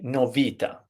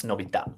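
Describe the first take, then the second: First: "novità" as no-VI-ta, middle syllable stressed; stress on second-last syllable. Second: "novità" as novi-TA, final syllable hit; stress on last syllable. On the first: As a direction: stretch the VI in "novità", drop the ta. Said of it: "put the emphasis on the penultimate". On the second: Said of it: "with the stress on the last syllable". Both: Shown as a demonstration.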